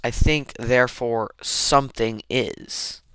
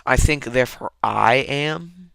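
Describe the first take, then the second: First: "something" stressed as the correction. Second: "I" in "I am" stressed, end lifting. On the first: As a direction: lean on "something" in place of "I". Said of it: "but it's almost". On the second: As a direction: lean on the "I" before "am". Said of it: "it's almost not". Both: Shown as a demonstration.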